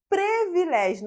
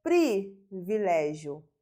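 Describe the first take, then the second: First: "Privilégio" with first syllable said as "pre"; wrong pronunciation. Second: "privilégio" with a clear, separated "pri"; correct pronunciation. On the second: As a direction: set off PRI at the start of "privilégio". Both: Shown as a demonstration. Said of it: "não é privilégio".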